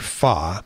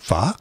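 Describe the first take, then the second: First: It is said with a more Vietnamese-like sound. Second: It is said with a melodic, tonal lilt. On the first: "if you pronounce it more Vietnamese like" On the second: "if you put the uh, Oriental um, lilt to it"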